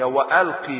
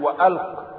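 First: The word ends with a short i vowel. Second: The word ends on the consonant with no vowel. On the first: The speaker calls it right. "هي وألقي" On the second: The speaker calls it wrong. "البعض في النطق ربما يقول وألق"

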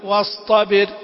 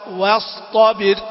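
First: The ط sounds thin and under-emphasized. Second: The ط sounds thick and fully emphasized. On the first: The speaker calls it wrong. "يكون الحرف نازل عن مستوى التفخيم المناسب" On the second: The speaker calls it right. "لا"

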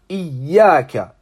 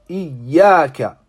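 The two takes are said the same way.

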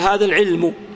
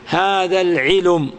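First: The l is silent, with no vowel after it. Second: A u vowel is added after the l.

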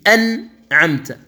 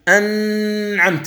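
First: The nasal N sound is short, without extension. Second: The nasal N sound is held noticeably long. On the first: The speaker calls it right. "أن هنا تقطع بالغنة، يعني الغنة مركبة في جسم النون" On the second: The speaker calls it wrong. "لكن لا تقول أنعمت، هذه الزيادة غير موجودة"

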